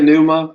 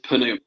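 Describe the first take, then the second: First: The initial p sound is silent, starting with n. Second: The initial p sound is pronounced before n. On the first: This is the common, widely understood pronunciation. "so if you want to say pneuma, I don't think anybody is going to not know" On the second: This follows the strict scholarly pronunciation. "If you want to use strict Erasmian pronunciations, it is pneuma"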